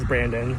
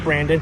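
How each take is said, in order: First: The name is said with a Spanish pronunciation. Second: The name is said with an English pronunciation. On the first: The speaker calls it wrong. "the Spanish pronunciation as Brandon" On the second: The speaker calls it right. "Just call me Brandon"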